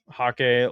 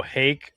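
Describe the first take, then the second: First: Hake said as HAH-kay, first vowel like father, second like day; two syllables, "Hake" as hah-KAY; mispronounced hake. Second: "hake" rhymes with rake, one syllable; "hake" said as HAYK, like rake; correct hake. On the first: Reading chat's word as HAH-kay, then correcting. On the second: Correcting himself to chat: "hake" like rake. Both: Shown as a demonstration. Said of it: "like rake".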